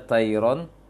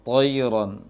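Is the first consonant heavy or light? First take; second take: light; heavy. First: The first consonant sounds light and thin. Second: The first consonant sounds heavy and full. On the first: The speaker calls it wrong. "jangan baca tairon" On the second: The speaker calls it right. "tapi toi toiron. Toi itu huruf-huruf tebal"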